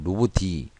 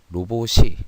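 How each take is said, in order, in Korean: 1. 받침은 ㄷ 소리로 연음됩니다. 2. 받침은 ㅅ 소리로 연음됩니다. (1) "만약에 여기에 디귿을 썼다. 그러면 로봇이" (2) "발음이 어떻게 나냐면 로봇이, 로봇을 이렇게 발음이 납니다"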